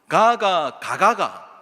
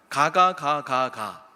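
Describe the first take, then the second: First: It has Gyeongsang dialect melody and vowel lengths. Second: It is read flatly, syllable by syllable.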